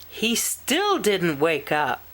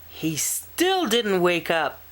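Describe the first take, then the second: Both takes have the same delivery.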